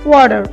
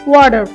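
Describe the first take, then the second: First: It is said with a final r sound. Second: The same.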